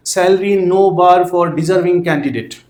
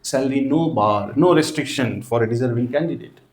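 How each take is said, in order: First: Very slow, word by word, spelled out for students to write; slow dictation. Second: Very slow and softer, lower, word by word; quiet slow dictation. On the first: Teacher dictating an ad line to students, very slow, word by word. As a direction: dictate each word slowly so the class can copy it. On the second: Teacher repeating the ad line for students, softer and very slow. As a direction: murmur the line slowly as students write it. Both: Shown as a demonstration.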